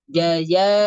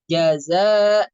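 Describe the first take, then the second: First: The middle consonant is a y sound without hiss. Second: The middle consonant is a hissing z sound. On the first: The speaker calls it wrong. "Tapi bacanya jaya ya jaya, bukan, tidak ada sifat sofirnya" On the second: The speaker calls it right. "harusnya harusnya kan kita membaca jaza"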